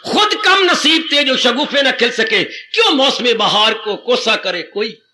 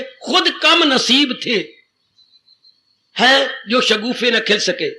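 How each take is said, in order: First: Couplet recital. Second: Slow poetic recital. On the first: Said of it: "couplet recited again in full". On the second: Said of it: "महापुरुष क्या कह गए". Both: Shown as a demonstration.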